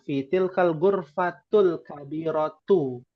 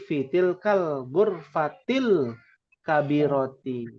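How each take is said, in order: First: The last two words end with an u vowel. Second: The last two words end with an i vowel. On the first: The speaker calls it wrong. "Tidak boleh dibacanya" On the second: The speaker calls it right.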